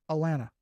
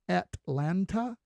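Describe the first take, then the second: First: It is said the way locals pronounce it. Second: It is said the way outsiders pronounce it. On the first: The speaker is from the area. The speaker calls it right. "That's just how we say it" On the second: The speaker is not from the area. The speaker calls it wrong. "If you say Atlanta, then we know you're not from here"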